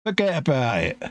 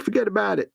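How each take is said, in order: First: Put-on London-sounding stab at New York accent; failed New York accent. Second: Higher-pitched New York accent. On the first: Mate attempting New York accent, sounding like London. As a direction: try New York but stay London. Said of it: "That was just London". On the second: Shown as a demonstration. Co-host challenging his mate, New York accent. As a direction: toss it off like a New Yorker. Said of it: "Can you say in New York".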